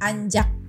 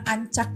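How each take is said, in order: First: The middle consonant is a j sound. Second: The middle consonant is not a j sound. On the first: "Bacanya jadi anjak" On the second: "yang beda itu cuman ancak gitu"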